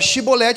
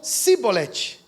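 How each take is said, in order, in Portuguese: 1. A palavra começa com o som 'sh'. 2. A palavra começa com o som 's' simples. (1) "Em vez de ele falar Shibolete" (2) "eles falavam Sibolete"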